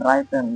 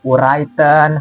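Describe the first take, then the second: First: The word starts with no w sound. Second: The word starts with an audible w sound. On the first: The speaker calls it right. "silent double W" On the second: The speaker calls it wrong. "mereka ucap seperti"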